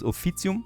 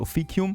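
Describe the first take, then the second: First: The word is said the new Latin way. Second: The word is said the old Latin way. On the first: "whereas the new Latin way is officium" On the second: "The old Latin way is probably officium"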